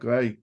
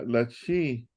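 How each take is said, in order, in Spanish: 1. El nombre de la letra termina en sonido 'ai'. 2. El nombre de la letra no termina en 'ai'.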